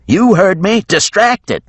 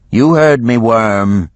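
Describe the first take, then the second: First: Much higher, louder shout; yelled order. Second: Higher, louder snap at the worm; defiant Geneva. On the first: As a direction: bark the order across the deck. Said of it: "she yelled". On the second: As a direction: bite back at the dragon. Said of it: "Geneva replied". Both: A narrator's reading.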